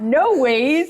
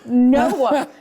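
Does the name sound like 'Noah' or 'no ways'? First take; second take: no ways; Noah. First: It is said like the two words no ways. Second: It is said like the plain name Noah. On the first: This is how locals pronounce the name. "That's the way we pronounce it" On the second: This is the standard way to read the sign. "that's Noah"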